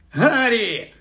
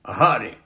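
First: High, effusive call of the name; mock-delighted greeting. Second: Low, restrained, solemn greeting. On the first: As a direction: hail him with exaggerated ceremony, pitched way up. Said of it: "Фред підіпхнув Персі і уклонився". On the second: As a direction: greet him gravely, as if meeting formally. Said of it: "подав йому руку так поважно". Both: A narrator's reading.

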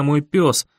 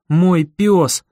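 First: Said in the usual way. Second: Each word of "мой пёс" punched louder; emphatic repeat. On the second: A narrator's reading. Narrator claiming his loyal dog, emphatic "мой пёс". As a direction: stress both "мой" and "пёс" separately.

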